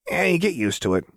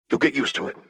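First: High, careless shrugging tone; Jinx voice. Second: Put-on high, smiling boy's reassurance; young boy voice. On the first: Acted. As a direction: toss it off lightly. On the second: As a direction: grin through the words. Echo repeats Jinx.

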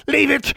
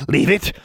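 First: Much higher, shrill repeated warning; shrieking creature. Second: Snarled creature warning. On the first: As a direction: shriek it the second time. Creature warns again. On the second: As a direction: warn her off sharply. Creature warns. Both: Acted.

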